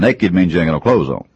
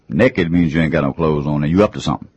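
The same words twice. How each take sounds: First: Said in the usual way. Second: "Naked" said as "nekkid", short e in the first syllable; Southern "nekkid". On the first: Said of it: "The difference of the words is profound". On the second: Shown as a demonstration. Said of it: "We change that word and we say".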